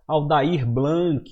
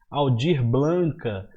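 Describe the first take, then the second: First: The first name's vowel becomes an ai sound. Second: An extra vowel is added to the surname's end. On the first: "Muita gente fala errado" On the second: "Muita gente fala errado"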